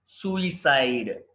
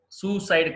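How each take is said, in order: First: సూసైడ్ slowly, with an "i" after "soo"; correct pronunciation. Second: సూసైడ్ in two syllables; wrong pronunciation. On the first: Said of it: "సూసైడ్ కాదు". (సూసైడ్ నిదానంగా "సూ-ఇ-సైడ్" అని) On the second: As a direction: say సూసైడ్ as "SOO-side". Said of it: "కాదు". (సూసైడ్ రెండు భాగాలుగా తప్పుగా) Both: Shown as a demonstration.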